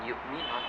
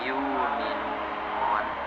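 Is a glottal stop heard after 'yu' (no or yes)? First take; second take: yes; no. First: A glottal stop is heard after the first syllable. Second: A long vowel replaces the glottal stop. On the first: The speaker calls it wrong. "Jadi bukan yuminun kalau kita pakai pendapat Imam As-Susi" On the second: The speaker calls it right. "tapi yuminun"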